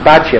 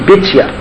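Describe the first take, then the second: First: The first vowel is an 'a' sound. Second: The first vowel is an 'i' sound. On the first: This is the common everyday pronunciation. The speaker calls it wrong. "we commonly pronounce it Batya" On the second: This is the authentic source pronunciation. The speaker calls it right. "the authentic pronunciation in the book of Chronicles"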